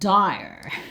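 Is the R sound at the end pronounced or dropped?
pronounced. The final R sound is clearly pronounced. "like the Americans do"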